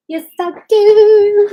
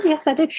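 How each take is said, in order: First: High, loud, slow gush; emphatic yes. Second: Said in the usual way. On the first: Real, not acted. Host gushing to viewers about her glass art. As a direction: sing out the yes with delight.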